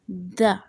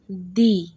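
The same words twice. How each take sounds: First: The vowel is a short, weak schwa. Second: The vowel is a long 'ee' sound. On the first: "This uses the schwa sound" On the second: "The second way to pronounce it"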